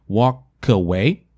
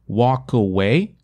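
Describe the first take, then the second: The two takes are said the same way.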